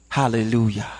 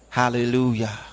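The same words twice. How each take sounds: The two takes are said the same way.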